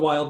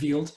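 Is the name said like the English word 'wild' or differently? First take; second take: English-like; differently. First: It sounds like the English word wild. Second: It sounds unlike the English word wild. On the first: This is how the spelling reads. The speaker calls it wrong. "It's spelled wild" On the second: This is the actual name. The speaker calls it right. "but it's Wild"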